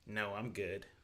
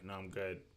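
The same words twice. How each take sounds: First: It is said in a mean, snappy tone. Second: It is said in a plain, neutral tone. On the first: The speaker is being rude about the offer. The speaker calls it wrong. "he said that in such a mean way" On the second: The speaker simply does not want food. The speaker calls it right. "I'm literally just saying"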